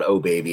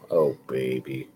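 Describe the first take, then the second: First: It is said loudly and excitedly. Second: It is said quietly and glumly.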